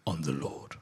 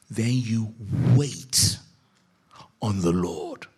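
First: Hushed. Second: Very slow and louder, leaning on "wait"; spelled-out slow emphasis on "wait on the Lord"; emphatic. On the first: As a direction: breathe the answer gently. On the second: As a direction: drive home "Then you wait" word by word. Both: Acted.

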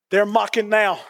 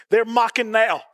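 Both takes have the same delivery.

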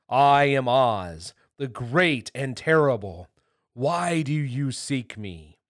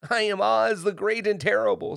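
First: Loud, slow, solemn proclamation; grand, stately voice announcing himself. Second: High, loud, frightened little man; timid, high-pitched announcement; trembling voice. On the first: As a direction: boom it out slowly like a mighty wizard. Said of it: "they heard a solemn voice". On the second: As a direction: blurt it out in alarm. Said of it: "in a trembling voice". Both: A narrator's reading.

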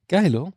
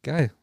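First: Excited. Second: Said in the usual way. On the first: Real, not acted.

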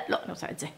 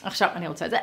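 First: Whispered second try. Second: Said in the usual way. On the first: Acted. Whispered take acting out indecision. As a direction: drop to a whisper as the mind changes.

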